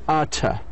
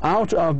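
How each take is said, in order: First: The words blend into one reduced form. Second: Both words are said fully and separately. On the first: "becomes outta" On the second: "out of becomes"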